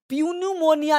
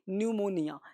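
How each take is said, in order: First: The word begins with a p sound. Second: The word begins with an n sound. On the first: The speaker calls it wrong. "प्यून्यूमोनिया नहीं बोलते" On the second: The speaker calls it right.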